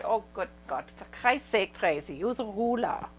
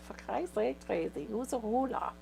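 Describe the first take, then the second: First: Imitating the boss's strong German accent; exasperated German boss, lightly accented. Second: Put-on exasperated German accent; a hint of the German boss. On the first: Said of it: "strong German accent". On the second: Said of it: "She likes your German accent".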